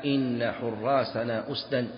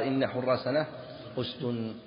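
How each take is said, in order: First: أسدا ending in "-dan"; slow verse line closing أسدا with -an; double-accusative demo. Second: أسد ending in "-dun"; standard-grammar version. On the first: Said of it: "من ينصب الجزئين". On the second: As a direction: say أسد closed on a u vowel with n. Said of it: "على اللغة المشهورة". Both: Shown as a demonstration.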